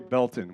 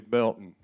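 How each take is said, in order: First: The middle T is clearly pronounced. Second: The middle T is soft, barely pronounced. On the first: This is how outsiders say the town name. The speaker calls it wrong. "we don't say Belton" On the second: This is how locals say the town name. The speaker calls it right. "we say Belton, right? We leave the soft T"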